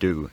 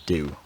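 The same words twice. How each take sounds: First: The vowel is a plain oo sound. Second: The vowel glides as a diphthong. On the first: "monophthongized to just oo" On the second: "has again diphthongized to something like do"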